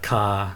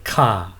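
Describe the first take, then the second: First: The pitch stays low throughout. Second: The pitch falls from high to low. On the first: Galangal, a plant in the ginger family. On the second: Servants.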